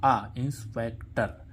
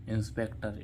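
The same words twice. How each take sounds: First: आ held slowly then inspector; slow teaching demo of आ in inspector; stretched demo. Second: Said in the usual way. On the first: Shown as a demonstration. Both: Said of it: "उच्चारण क्या आ रहा है".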